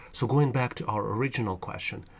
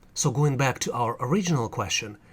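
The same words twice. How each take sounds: Both takes have the same delivery.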